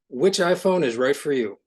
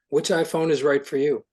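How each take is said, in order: First: It is read with over-the-top high energy. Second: It is read with calm, ordinary energy.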